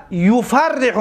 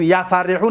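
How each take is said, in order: First: یفرح begun with yu, as yufarrihu; یفرح as yufarrihu, doubled r; first syllable yu. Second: یفرحو begun with ya, as yafarrihu; یفرحو mispronounced as yafarrihu; wrong first vowel ya. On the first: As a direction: say یفرح slowly with u after the y. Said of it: "میگو". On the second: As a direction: say یفرحو with a after the y. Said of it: "نمیگوی". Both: Shown as a demonstration.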